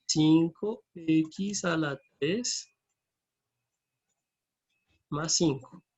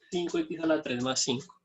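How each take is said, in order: First: Very slow, stretched words with pauses; drawn out, long gap before the last part; slow dictation. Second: Said in the usual way. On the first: Real, not acted. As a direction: dictate it piece by piece as you write. Formula repeated slowly while entering it.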